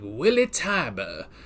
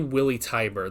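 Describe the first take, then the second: First: The name is said in a put-on accent. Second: The name is said plainly, without any accent. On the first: "You gotta say it like Willie Tiber" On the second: "I can't just say Willie Tiber. That's not fun"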